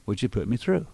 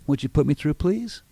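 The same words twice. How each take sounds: First: Said in the usual way. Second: "please" climbs high at the end, pleading; weak, asking tone with "please" going up; begging rising tune. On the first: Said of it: "They would say". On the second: Shown as a demonstration. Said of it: "somebody else would not say".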